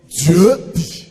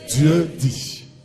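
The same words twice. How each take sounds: First: It is said at normal, louder volume. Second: It is said with a lowered, softer voice.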